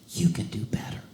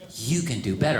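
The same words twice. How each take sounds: First: It is said very quietly. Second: It is said a little louder.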